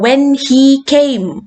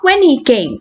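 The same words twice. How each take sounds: First: The word 'he' is said fully with 'h'. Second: The word 'he' is reduced without 'h'.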